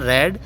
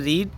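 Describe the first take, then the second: First: The vowel is a short 'e' sound. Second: The vowel is a long 'ee' sound. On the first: It is the past or past participle form. "Second form पढ़ेंगे उसको ना रेड" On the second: It is the base form of the verb. "First form बोलते हैं रीड"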